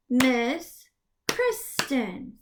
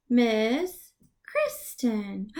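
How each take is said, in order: First: Miss Kristen split apart; teacher clapping a name; clapped syllables. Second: Miss Kristen stretched slowly; teacher clapping a name; slow clapped name. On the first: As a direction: clap each syllable. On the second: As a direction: clap it out slowly. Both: Shown as a demonstration. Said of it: "clap the syllables in your name".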